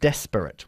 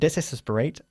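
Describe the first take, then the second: First: It has no extra syllable after 'des'. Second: It has an extra 'es' syllable after 'des'. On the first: The speaker calls it right. "desperate, we say in English" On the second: The speaker calls it wrong. "not desesperate"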